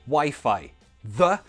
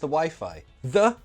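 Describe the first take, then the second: No difference in how they are said.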